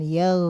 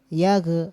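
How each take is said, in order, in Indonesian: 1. Konsonan akhir mengalir halus tanpa dilepas. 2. Konsonan akhir dilepas dengan memantul. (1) "suaranya dialirkan. Yaw, gitu" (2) "Kalau dilepas yag, yag. Nah, itu yang enggak boleh"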